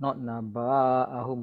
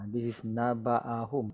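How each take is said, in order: First: The vowel after the b is drawn out. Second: The vowel after the b is short. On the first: The speaker calls it wrong. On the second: The speaker calls it right. "So short"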